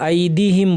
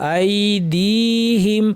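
First: The vowel after the d is short. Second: The vowel after the d is drawn out. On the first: The speaker calls it wrong. "আই দি হিম বলবেন না" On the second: The speaker calls it right. "এখানে দালের পরে ইয়া আছে টানতে হবে"

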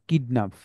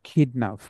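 First: The first k has no puff of air. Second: The first k has a strong puff of air. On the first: The speaker calls it wrong. "Not কিডন্যাপ" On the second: The speaker calls it right. "এর sound হবে খ"

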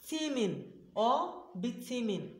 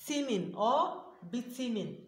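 The two takes are said the same way.

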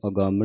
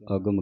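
First: The m is doubled with extra nasal weight. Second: The m is short and single. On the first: The speaker calls it wrong. "ਇਹਨੂੰ ਅਗੰਮ ਨਹੀਂ ਕਹਿਣਾ" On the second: The speaker calls it right. "ਅਗਮ ਕਹਿਣਾ"

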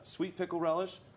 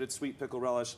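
First: The phrase is said slowly and deliberately. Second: The phrase is said at a normal, quick pace.

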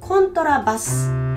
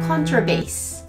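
First: It is said with Japanese loanword pronunciation. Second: It is said with English pronunciation.

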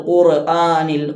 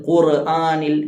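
No difference in how they are said.

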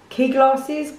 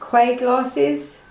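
First: The first word sounds like 'key'. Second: The first word sounds like 'kway'.

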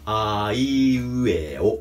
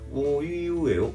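First: The vowels are said with a wide-open mouth. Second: The vowels are said with a barely open mouth. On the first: The speaker calls it right. "かなり僕は今口を開けてやってます" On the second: The speaker calls it wrong. "おいうえおぐらいでやっちゃってると思うんですよ"

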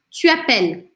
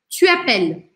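No difference in how they are said.

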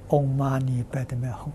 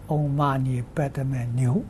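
First: The last syllable is pronounced hum. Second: The last syllable is pronounced niu. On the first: The speaker calls it right. "念六字大明咒" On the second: The speaker calls it wrong. "但他念错了，他念Om Mani Padme Niu"

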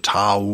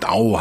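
First: The word begins with a hard T sound. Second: The word begins with a softer D sound. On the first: This is the usual Western pronunciation. "bei den westlichen Aussprachen bleiben" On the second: This is closer to the Chinese pronunciation. "im Chinesischen ja Dao heißt, glaube ich. Ne? Also eher mit D vorne, weicher"

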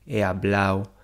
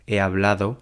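First: The d sound in the ending is dropped. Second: The d sound in the ending is pronounced. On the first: The speaker calls it wrong. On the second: The speaker calls it right.

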